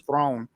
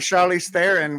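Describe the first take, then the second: First: The surname is said as one syllable, 'throne'. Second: The surname is said in the usual two-syllable way. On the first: The speaker calls it right. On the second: The speaker calls it wrong.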